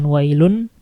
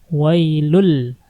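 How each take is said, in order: First: The n is clearly heard before the l. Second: The n merges fully into the following l. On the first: The speaker calls it wrong. "bukan wailun" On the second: The speaker calls it right. "tapi lunnya masukin ke lam"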